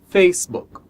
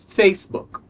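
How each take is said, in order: The two takes are said the same way.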